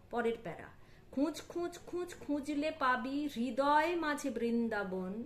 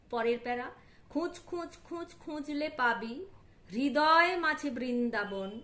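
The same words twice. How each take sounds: The two takes are said the same way.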